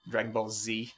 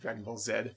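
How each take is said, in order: First: The letter Z is said the American way, zee. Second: The letter Z is said the Canadian way, zed.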